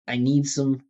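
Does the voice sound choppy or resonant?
resonant. The voice is resonant, with steady vibration throughout. The speaker calls it right. "bring the energy up. Vibration, musicality, pitch"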